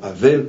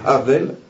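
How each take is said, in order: First: The name starts with a silent h. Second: The name starts with a breathy h sound. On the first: The speaker calls it wrong. "et non Havel, parce qu'on le prononce à la française" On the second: The speaker calls it right. "mais c'est un he, Havel"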